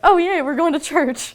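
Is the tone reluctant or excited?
excited. It sounds happy and excited.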